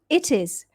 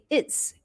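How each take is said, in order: First: It is said as two full words. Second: It is contracted into one syllable.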